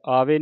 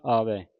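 First: ਆਵੇ ending in a narrow "ay" sound; wrong vowel ending. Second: ਆਵੈ ending in a wide "ai"; correct open ending. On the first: Teacher shows students the misreading, ਆਵੇ with "e". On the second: Teacher corrects students' reading, ਆਵੈ with open "ai". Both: Shown as a demonstration. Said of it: "ਆਵੇ ਨਹੀਂ ਪੜ੍ਹਨਾ".

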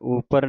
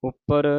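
First: ਉੱਪਰ said loosely, without the doubled p held tight; wrong loose upar. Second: ਉੱਪਰ with the doubled p pressed tight and held; tight upar. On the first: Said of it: "ਉੱਪਰ ਨਹੀਂ ਕਹਿ ਦੇਣਾ". (ਢਿੱਲਾ ਉਚਾਰਨ ਉੱਪਰ) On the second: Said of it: "ਉੱਪਰ ਕੱਸ ਕੇ ਬੋਲਣਾ ਹੈ". (ਉੱਪਰ ਕੱਸ ਕੇ ਬੋਲਣਾ) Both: Shown as a demonstration.

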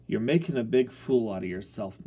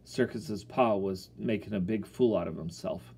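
First: Disgusted. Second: Said in the usual way. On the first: Acted. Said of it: "my pop said disgustedly". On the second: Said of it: "It was like my pop had just said".

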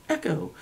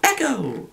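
First: Much softer, dying-away echo; fading echo. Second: Higher, softer echoed word; mock echo. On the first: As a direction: let it fade far off. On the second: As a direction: let the word ring back like an echo. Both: Shown as a demonstration. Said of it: "In other words".

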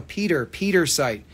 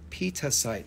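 First: Peter site with a clear r closing Peter; corrected pronunciation. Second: Peter site said softly in the seller's own accent; accented slip. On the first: Shown as a demonstration. Seller correcting the stone's name, clear r in Peter site. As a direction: stress and repeat Peter, sounding its r. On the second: Real, not acted. Seller naming the stone to buyers, accented slip on Peter site. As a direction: Peter site with a soft, loose ending on Peter. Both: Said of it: "Sorry, my accent".

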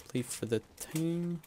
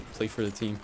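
First: Higher lilt with TEAM stretched; sing-song lift on TEAM; drawn-out TEAM. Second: Said in the usual way. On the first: Real, not acted. Repeats team-play motto, drawn out.

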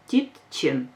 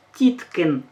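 First: Тітчин said with ч in place of к; тітчин, the ч sound, calmly; correct form. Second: Тіткин said with a hard к, as the mistake; тіткин with к, not ч; wrong form. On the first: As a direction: say тітчин with a clear ч. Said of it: "Ми говоримо правильно". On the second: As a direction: say тіткин keeping the к. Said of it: "Ми не кажемо". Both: Shown as a demonstration.

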